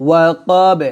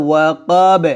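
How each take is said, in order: No difference in how they are said.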